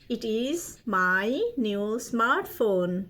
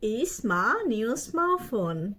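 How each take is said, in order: First: Each word is said separately and fully. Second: The words are run together and reduced.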